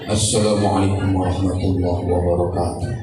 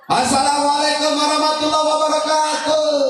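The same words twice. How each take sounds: First: It is said low and soft. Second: It is said high and loud, like an announcement.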